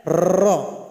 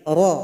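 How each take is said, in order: First: "Ra" with a long rolled r of many taps; wrong rolled r. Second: "Ra" with just one tap of the r; single tap r. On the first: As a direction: overdo the trill on "Ra" as the wrong example. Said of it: "Itu salah". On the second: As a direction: tap the r of "Ra" only once, correctly. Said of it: "Pengulangannya cuma sekali". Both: Shown as a demonstration.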